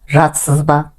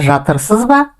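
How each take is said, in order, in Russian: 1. Средние звуки проглатываются, не произносятся. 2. Каждый слог слова произносится полностью. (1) "но произносится жатсыз ба" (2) "Пишется жатырсыз ба"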